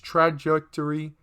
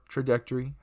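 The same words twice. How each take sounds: First: It is said as 'tragic' plus 'Tory'. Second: It is said with the usual 'traj' beginning.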